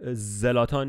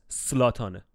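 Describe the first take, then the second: First: The name begins with a Z sound. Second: The name begins with an S sound. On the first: The speaker calls it wrong. "زلاتان نیست" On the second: The speaker calls it right. "سلاتانه. خب اینجوری بگو از این به بعد"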